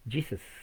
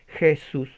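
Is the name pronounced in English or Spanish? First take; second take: English; Spanish. First: The name has an English pronunciation. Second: The name has a Spanish pronunciation.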